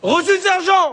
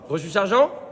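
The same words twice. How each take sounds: First: It is said loudly and aggressively. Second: It is said softly, like a question.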